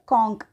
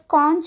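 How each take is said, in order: First: The word ends with a k sound. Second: The word ends with a ch sound. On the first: "American pronunciation बघायचं असेल तर" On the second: "British जर pronunciation बघायचं असेल तर"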